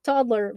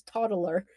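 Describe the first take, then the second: First: Said in the usual way. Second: Put-on TODDLER as tod-uh-ler, three syllables; mispronounced TODDLER. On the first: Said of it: "people can't pronounce the word toddler". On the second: Shown as a demonstration. Showing cohost the wrong way, TODDLER as tod-uh-ler. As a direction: slip an extra vowel into TODDLER. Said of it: "Everyone says toddler".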